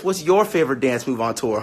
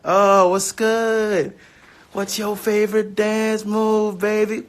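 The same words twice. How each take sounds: First: Said in the usual way. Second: Slow, high, smooth-talker croon; flirty put-on voice. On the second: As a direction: ask it like a cheesy lover, drawn out. Playful flirty repeat of question.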